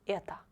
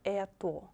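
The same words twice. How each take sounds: First: The final vowel sounds like A. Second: The final vowel sounds like a full O. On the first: The speaker calls it right. "It will be это, because O is not stressed" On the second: The speaker calls it wrong. "Not это"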